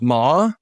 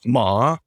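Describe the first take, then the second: First: The pitch rises from middle to high. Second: The pitch dips low then rises. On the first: It means hemp. "Second tone is ma, your voice goes up" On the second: It means horse. "third tone is ma, which means horse"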